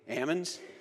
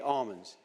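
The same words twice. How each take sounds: First: It is said the non-southern California way. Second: It is said the southern California way. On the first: This is how the speaker's own region says it. "My part of the state, we say almonds" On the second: This is how the southern region says it. "in the south part of the state seems to say almonds"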